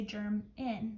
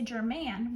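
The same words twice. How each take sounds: First: German with a weak schwa in the last syllable, GER-mun; German spoken naturally, last vowel swallowed. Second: German with a full clear A in the last syllable, Ger-MAN; careful overpronounced German with a full final A; wrong full-vowel German. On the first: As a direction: say German relaxed, second syllable reduced. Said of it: "we say German". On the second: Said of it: "We don't say German". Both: Shown as a demonstration.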